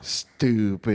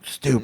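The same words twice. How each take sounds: First: The word is said in a silly, playful voice. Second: The word is said in an angry, harsh voice. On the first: It is an affectionate tease. The speaker calls it right. "I gotta say like in a silly voice" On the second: It is a real insult. The speaker calls it wrong. "I can't say like angry like oh fucking stupid"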